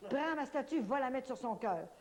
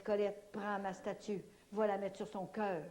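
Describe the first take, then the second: First: "statue" lifted much higher; urgent retelling of the command; insistent repeat. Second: Slow, measured words; "prends ma statue" said slowly and deliberately; saint's gentle order, slowed down; slow calm command. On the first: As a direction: press the order, rising high on "statue". Repeating the saint's order insistently. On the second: Grandmother Saint Anne speaks to her. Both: Retold or imitated.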